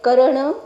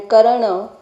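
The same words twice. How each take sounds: First: Karana with the accent on Ka; stress on first syllable. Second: Karana with the accent on the final na; stress on last syllable. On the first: Scholar showing the word for doing, Karana stressed on Ka. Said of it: "accented on the first a". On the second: Scholar showing the word for doer, Karana stressed on final na. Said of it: "accented lastly". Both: Shown as a demonstration.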